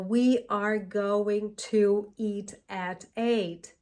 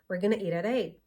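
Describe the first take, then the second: First: Each word is separate with crisp T sounds. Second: The words link together with soft flapped T sounds. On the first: "it won't sound like this" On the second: "a native speaker might say something like"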